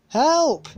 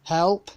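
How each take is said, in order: First: Shouting for help. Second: Said in the usual way. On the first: A narrator's reading. Sarah stuck on the haystack, shouting for help. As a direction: yell "Help!" at the top of your lungs. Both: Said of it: "she shouted at the top of her voice".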